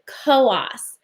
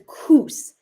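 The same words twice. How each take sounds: First: It is said the local New Hampshire way. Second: It is said the way the spelling suggests. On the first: "here in New Hampshire, we pronounce it Coos" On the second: "I know it looks like it says Coos"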